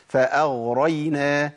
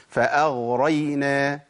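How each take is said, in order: The two takes are said the same way.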